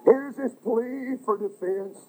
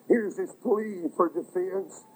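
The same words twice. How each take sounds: The two takes are said the same way.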